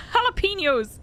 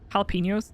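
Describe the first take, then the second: First: "Jalapenos" shouted high as "hah-lah-PEE-nyohs"; hammed-up "Jalapenos"; exasperated jalapenos. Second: "Jalapenos" said as "hah-lah-PEE-nyohs", questioning rise; accidental "Jalapenos" slip. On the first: Shown as a demonstration. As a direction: fling "Jalapenos" out in mock despair. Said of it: "This is what you've done to me". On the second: Real, not acted. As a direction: catch yourself saying "Jalapenos" the wrong way. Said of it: "Did I just say that?".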